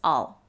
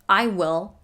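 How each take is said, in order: First: It is contracted into one short syllable. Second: It is said as two full words.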